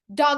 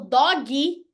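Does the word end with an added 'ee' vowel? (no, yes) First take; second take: no; yes. First: The word ends without any extra vowel. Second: The word ends with an extra 'ee' vowel. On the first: It means a dog. The speaker calls it right. "Dog é cachorro" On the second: It sounds like a diminutive, a little dog. The speaker calls it wrong. "é cachorrinho? Então, não digam isso"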